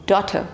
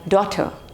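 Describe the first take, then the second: First: It has a British accent with a silent R. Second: It has a British accent with a silent R.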